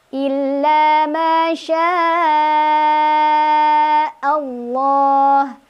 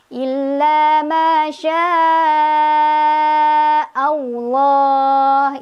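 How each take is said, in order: First: The L in Allah is heavy and thick. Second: The L in Allah has a W-like glide. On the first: The speaker calls it right. "kemudian lohnya tebal" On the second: The speaker calls it wrong. "Itu ada W-nya juga salah"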